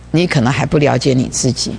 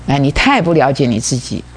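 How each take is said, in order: First: Said in the usual way. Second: 太 given the peak of the line; stress on 太. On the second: Shown as a demonstration. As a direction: lean on 太, then let the rest fall.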